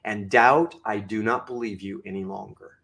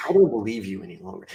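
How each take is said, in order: First: Very low, measured dismissal of doubt; low, deliberate and resolute, softening after the address; firm self-talk. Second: Very low, quick rebuff; fast, low-pitched, decisive dismissal; firm self-talk. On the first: Speaker addressing his own doubt, firm self-talk. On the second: Speaker repeating his rebuff to doubt, firm self-talk. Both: Shown as a demonstration. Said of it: "I talk like this all the time".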